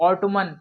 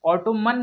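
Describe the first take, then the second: First: The final n is pronounced. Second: The final n is pronounced.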